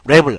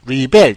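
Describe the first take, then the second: First: The stress is on the first syllable. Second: The stress is on the second syllable. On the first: It is the noun, meaning a person who rebels. "앞으로 오면은 명사입니다" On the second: It is the verb, meaning to resist. "뒤로 가면은 동사고요"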